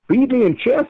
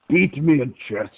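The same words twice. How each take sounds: First: A put-on accent that sounds convincingly Russian. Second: A harsh put-on accent that does not sound Russian. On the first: The speaker calls it right. "Way better. Straight Ruski" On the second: The speaker calls it wrong. "That's Klingon"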